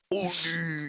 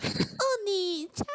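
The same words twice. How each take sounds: First: Put-on man voice after the squeak; hammed-up man's Oni-chan; deepest man voice. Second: Put-on very high, drawn-out anime girl squeak; exaggerated high-pitched anime voice; Oni-chan voice. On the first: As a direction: switch to a mock manly voice. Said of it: "Put on your deepest man voice possible". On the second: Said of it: "Oni-chan voice".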